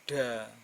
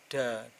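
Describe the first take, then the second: No difference in how they are said.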